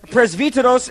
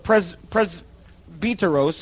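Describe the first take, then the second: First: It is pronounced the Greek way. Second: It is pronounced the English way. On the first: "in the Greek" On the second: "I guess you would say in the English"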